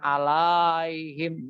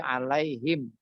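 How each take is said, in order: First: The second-syllable vowel is long. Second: The second-syllable vowel is short. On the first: The speaker calls it wrong. "bukan alaihim" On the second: The speaker calls it right. "La-nya sudah jadi pendek"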